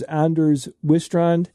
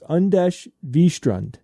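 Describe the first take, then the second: First: The first name begins with an 'and' sound. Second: The first name begins with an 'un' sound. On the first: The speaker calls it wrong. "I wasn't even close" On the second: The speaker calls it right. "It's Anders Wistrand"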